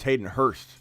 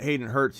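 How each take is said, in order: First: The surname ends with an 'st' sound. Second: The surname ends with a 'ts' sound. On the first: The speaker calls it right. "it's Hayden Hurst" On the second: The speaker calls it wrong. "is not Hayden Hurts"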